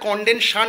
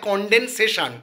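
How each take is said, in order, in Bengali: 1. শব্দটি তিনটি সিলেবলে উচ্চারিত হয়। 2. শব্দটি চারটি সিলেবলে উচ্চারিত হয়। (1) "প্রোনাউন্সিয়েশনটা আমি ভুল বলেছিলাম" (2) "ওটা হবে কনডেনসেশন"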